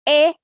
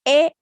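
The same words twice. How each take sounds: No difference in how they are said.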